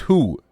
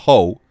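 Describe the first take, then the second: First: The vowel is a long 'oo' sound. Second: The vowel is a long 'oh' sound. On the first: The speaker calls it right. "W H O is who" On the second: The speaker calls it wrong. "It's not ho"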